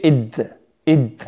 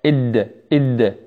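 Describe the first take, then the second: First: إد with the tongue dropped to the teeth, leaking air; hissy, loose d in إد; mistaken dental d. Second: إد with tongue tip up behind the teeth ridge; crisp voiced stop in إد without breath; correct palate d. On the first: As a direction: show the wrong إد, breath escaping after the d. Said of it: "فإذا نزل إلى الأسنان يصير". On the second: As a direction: tap the d of إد cleanly on the upper palate. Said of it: "إلى الحنك الأعلى". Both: Shown as a demonstration.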